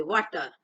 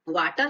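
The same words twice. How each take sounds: First: वाटर as "vaw-tar", pitched lower; वाटर with vowel between aa and o; correct rounded vowel. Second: वाटर as "vaa-tar", pitched higher; वाटर with unrounded open aa; wrong long aa. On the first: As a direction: say वाटर with open aw, falling. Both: Shown as a demonstration. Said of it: "वाटर नहीं पढ़ते".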